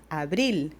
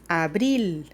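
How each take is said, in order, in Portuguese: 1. O L final soa como um L claro. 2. O L final soa como um L claro.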